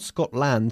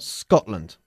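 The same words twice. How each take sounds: First: The last syllable has a full 'land' vowel. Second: The last syllable has a reduced 'lund' vowel. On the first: The speaker calls it wrong. "not Scotland" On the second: The speaker calls it right. "sino Scotland. ... Lund, not land"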